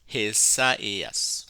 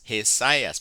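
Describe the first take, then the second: First: The two vowels are said as separate syllables. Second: The two vowels merge into one diphthong. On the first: The speaker calls it right. "Because of the diaresis, you pronounce Hesaias" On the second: The speaker calls it wrong. "If this were a diphthong, it would be Hesias"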